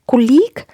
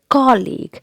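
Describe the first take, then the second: First: The stress is on the second syllable. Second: The stress is on the first syllable. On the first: The speaker calls it wrong. "That's again incorrect pronunciation" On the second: The speaker calls it right. "the stress is given on the first syllable"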